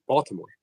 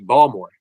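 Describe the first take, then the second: First: The T sound in the middle is pronounced. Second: The T sound in the middle is dropped. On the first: "there's a T in Baltimore" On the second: "Unless you're actually from Baltimore, and then it would be Balmore. That's how they say it"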